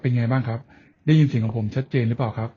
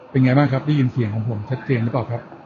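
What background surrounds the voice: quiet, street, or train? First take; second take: quiet; street. First: The voice is heard with quiet surroundings. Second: The voice is heard with roadside traffic noise. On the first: "ในที่เงียบ" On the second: "street noise ครับริมถนน"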